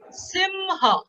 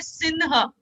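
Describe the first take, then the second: First: The nasal before 'h' is an m sound. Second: The nasal before 'h' is an n sound. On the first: The speaker calls it right. "it is ma" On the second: The speaker calls it wrong. "Hindi speaking will say Sinha. No"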